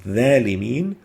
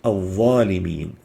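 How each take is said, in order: First: The first consonant is a plain dh sound. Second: The first consonant is a deep emphatic dh. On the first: The speaker calls it wrong. "the the could be exchanged with a thal" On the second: The speaker calls it right. "The proper way is to pronounce it"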